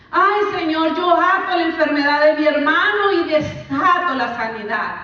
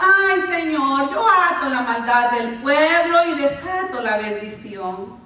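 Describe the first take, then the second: First: Loud, higher mock "Ay, Señor" plea; mocking prayer. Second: Drawn-out mocking "Ay, Señor" plea; mocking prayer. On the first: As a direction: parody the rebuking prayer again. (imitación burlona de oración) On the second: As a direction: parody a showy binding prayer, slowly. (oración burlona y alargada) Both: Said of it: "Muchas veces lo usamos así".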